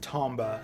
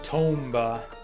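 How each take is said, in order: First: The first vowel sounds like the vowel in Tom. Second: The first vowel sounds like the vowel in tome. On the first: The speaker calls it right. "as in Tom" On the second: The speaker calls it wrong. "as in tome"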